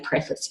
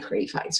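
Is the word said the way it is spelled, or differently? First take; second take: differently; as spelled. First: It is said differently from the spelling. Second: It is said the way it is spelled. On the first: The speaker calls it right. "we say preface" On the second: The speaker calls it wrong. "written as though it says preface. But we don't say preface"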